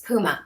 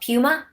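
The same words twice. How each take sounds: First: The u has no y sound before it. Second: The u has a y sound before it. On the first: The speaker calls it right. "It's Puma" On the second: The speaker calls it wrong. "I hate that liquid U"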